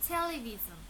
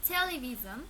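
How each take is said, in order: The two takes are said the same way.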